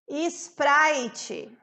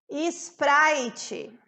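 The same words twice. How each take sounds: First: A vowel sound comes before the S. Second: The same.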